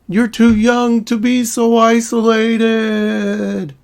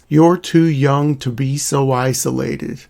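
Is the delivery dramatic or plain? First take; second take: dramatic; plain. First: It is said in a very dramatic way. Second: It is said in a plain, matter-of-fact way.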